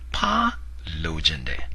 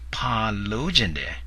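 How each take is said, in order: First: The second syllable has a level tone. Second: The second syllable has a raised tone. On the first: I want a frog. The speaker calls it right. "The correct way to say it" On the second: A request for sexual services. The speaker calls it wrong. "flip-flop the tones between pa and lo"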